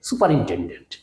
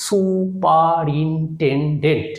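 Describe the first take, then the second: First: Said in the usual way. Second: superintendent drawn out very slowly as সু-পা-রিন-টেন-ডেন্ট; syllable by syllable. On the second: Shown as a demonstration. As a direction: say superintendent in five even, separate beats. (Superintendent ধীরে, syllable ভেঙে ভেঙে) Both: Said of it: "তাহলে কি বললাম?".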